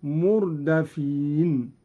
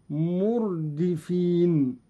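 First: مردفين slowly as murdafin, dal with fatha. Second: Said in the usual way. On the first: Shown as a demonstration. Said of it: "هكذا". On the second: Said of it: "قرأ قالون بفتح الدال".

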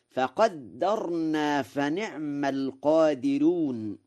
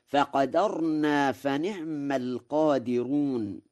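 First: Slow recital, "فقدرنا" as faqaddarnā; "فقدرنا" with doubled dal. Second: Said in the usual way. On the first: Shown as a demonstration. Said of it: "بتشديد الدال". ("فقدرنا" بتشديد الدال) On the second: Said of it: "قرأ ورش".

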